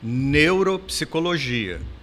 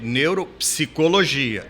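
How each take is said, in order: First: The emphasis falls on the first part, neuro. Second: The emphasis falls on the second part, psicologia. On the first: It sounds like a medical field. "a pessoa enfatizava a primeira parte da, da palavra" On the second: It sounds like a psychology field. "enfatizava a segunda parte da palavra"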